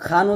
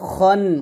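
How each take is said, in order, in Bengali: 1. kh-এর পরের স্বরধ্বনিটি খোলা 'a'। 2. kh-এর পরের স্বরধ্বনিটি 'o'-এর মতো শোনায়। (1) "খান উচ্চারণ করা যাবে না" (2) "বলতে হবে খন"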